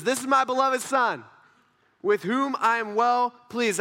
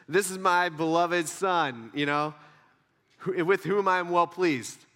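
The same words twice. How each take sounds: First: Loud, higher proclamation; audible heavenly voice. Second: Slow, measured proclamation; mildly deepened voice of God. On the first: Voice from heaven declaring a beloved son, loud and proud. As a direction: announce it boldly, drawing out the close. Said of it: "An audible voice from heaven". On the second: Audible voice from heaven about a son, mildly deepened. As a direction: lightly voice a solemn heavenly declaration. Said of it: "my voice got deeper". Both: Acted.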